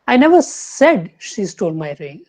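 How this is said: The stress falls on the word said. It was only implied, not said. "Third लेंगे"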